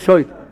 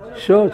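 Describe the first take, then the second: First: The word is said with an oy vowel. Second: The word is said with an o vowel. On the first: This is another Yiddish or Yemenite way of saying it. "או שויט" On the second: This is the Yiddish or Yemenite way of saying it. "אם זה ביידיש או בתימנית, זה שוט"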